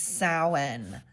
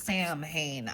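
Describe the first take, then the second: First: The sounds differ from how the letters look. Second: Each letter is sounded as it looks written. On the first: The speaker calls it right. "It's Samhain" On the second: The speaker calls it wrong. "It looks like it says Samhain"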